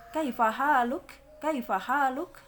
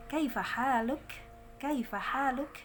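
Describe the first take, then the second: First: "Kaifa haluk" said loud, without the smile; wrong heavy pronunciation. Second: "Kaifa haluk" with thin, smiling vowels; smiling pronunciation. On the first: Teacher shows students the mistake, heavy unsmiling pronunciation. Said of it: "Tidak gitu". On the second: Teacher models Arabic greeting for students, smiling thin letters. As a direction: say "Kaifa haluk" higher, through a smile. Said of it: "dibaca agak senyum". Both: Shown as a demonstration.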